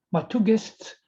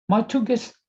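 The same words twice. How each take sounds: The two takes are said the same way.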